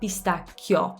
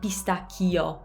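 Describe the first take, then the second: First: The i glides quickly like a Y. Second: The i is a full separate vowel. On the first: The speaker calls it right. "Treat it like a Y" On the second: The speaker calls it wrong. "It's not pistacchio"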